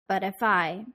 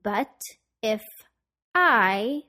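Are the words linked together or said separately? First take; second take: linked; separately. First: The final consonants link into the next words. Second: The words are said separately, not linked.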